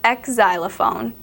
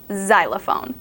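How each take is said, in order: First: The word starts with a ks sound. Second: The word starts with a z sound. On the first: The speaker calls it wrong. "You don't say X-xylophone" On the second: The speaker calls it right. "you say xylophone. You pronounce it as if it has a Z"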